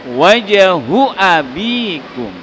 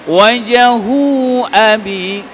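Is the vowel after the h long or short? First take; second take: short; long. First: The vowel after the h is kept short. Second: The vowel after the h is drawn out long. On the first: The speaker calls it right. "Makanya haknya dibaca pendek" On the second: The speaker calls it wrong. "bukan wajahu abi, salah"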